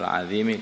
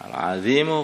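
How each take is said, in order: First: The word ends with an i vowel. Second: The word ends with an u vowel. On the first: The greatness describes the throne. "al-azimi kepada arsy-nya" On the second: The greatness describes God. "Al-azimu kembali kepada Allah"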